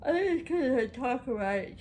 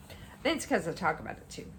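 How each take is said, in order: First: Words stretched by a yawn. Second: Said in the usual way. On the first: Real, not acted. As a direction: talk through a big yawn. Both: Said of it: "I'm sorry".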